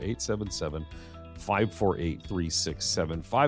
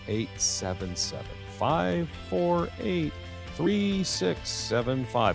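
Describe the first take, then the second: First: The number is read at a quicker pace. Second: The number is read at a slower pace.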